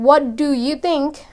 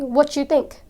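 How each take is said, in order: First: The words what and do are kept separate. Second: What and do blend into a ch sound. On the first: "Instead of saying" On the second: "They say, ... There's this ch, ch sound to it"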